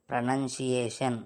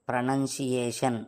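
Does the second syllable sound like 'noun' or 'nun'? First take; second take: nun; nun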